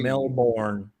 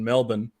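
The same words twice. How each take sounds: First: Melbourne is said with an American pronunciation. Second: Melbourne is said with an Australian pronunciation. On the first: This is how people in the Florida town say it. "you guys probably pronounce it" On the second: This is how locals in the Australian city say it. "We pronounce Melbourne"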